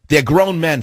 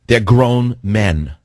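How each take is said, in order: First: Said in the usual way. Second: Drawn out very slowly, each word weighted; slow it right down and lean on each word; slow, emphatic. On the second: Real, not acted. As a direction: spell it out like he can't believe it. Host hammers his point.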